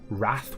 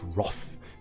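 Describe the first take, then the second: First: The vowel sounds like the one in cat. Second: The vowel sounds like the one in cloth. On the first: It is the everyday way to say it. "I thought that Wrath was just how everyone spoke" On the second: It is an especially posh way to say it. "no, no, no, it's Roth. You're especially posh"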